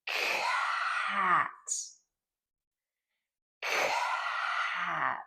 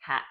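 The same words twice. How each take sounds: First: "cat" with a long burst of air after the k; aspirated cat. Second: "cat" without the long air burst; wrong cat. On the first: Therapist modeling "cat" for a child, airy burst. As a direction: push a big puff of air after "cat". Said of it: "I would say". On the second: Therapist showing the wrong "cat", clipped. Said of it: "I don't want you to say". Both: Shown as a demonstration.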